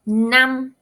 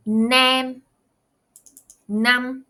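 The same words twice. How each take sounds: First: "nam." cut short and louder; short vowel demo. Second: "Nam," said short and punchy, repeated; short vowel again. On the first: Teacher contrasting short vowel, crisp and loud. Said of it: "and then we have". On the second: Teacher repeating short vowel for students, crisp. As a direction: model "Nam," crisply for the class. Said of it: "one more time". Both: Shown as a demonstration.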